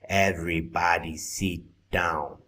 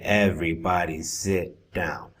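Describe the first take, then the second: First: The vowel in 'sit' sounds like 'seat'. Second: The vowel in 'sit' sounds like 'sit'. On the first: The speaker calls it wrong. "you're saying seat instead of sit" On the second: The speaker calls it right. "the next time around"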